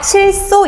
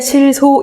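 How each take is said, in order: First: The second syllable starts with a tense s. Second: The second syllable starts with a plain s. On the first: The speaker calls it right. "된소리로 발음이 나서 실소 이렇게 난다" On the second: The speaker calls it wrong. "이게 아니고"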